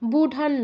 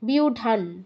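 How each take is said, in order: First: The first syllable has no y-glide before u. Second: The first syllable has a y-glide before u. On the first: The speaker calls it wrong. "বুঢান নয়" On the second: The speaker calls it right. "বলুন বিউঢাম"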